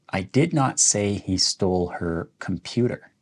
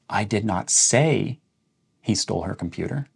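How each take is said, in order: First: The stress falls on "computer". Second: The stress falls on "say". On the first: He stole something else of hers. "let's emphasize the word computer" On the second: It was written or texted, not spoken. "So we're emphasizing say"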